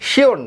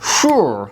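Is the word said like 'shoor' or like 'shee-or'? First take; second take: shee-or; shoor. First: It is said as two syllables, shee-or. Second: It is said as one syllable, shoor. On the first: The speaker calls it wrong. "এই শব্দটির সঠিক উচ্চারণ কিন্তু শিওর না" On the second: The speaker calls it right. "হবে কি শুর"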